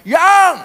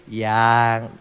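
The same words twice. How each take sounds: First: "Yang" shouted high and loud; "Yang" snapped out loud and harsh; harsh barked "Yang". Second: Full of affection. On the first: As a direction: bark "Yang" at your wife. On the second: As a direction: let "Yang" carry tenderness. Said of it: "Intonasinya itu na-, penuh nada kasih". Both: Shown as a demonstration.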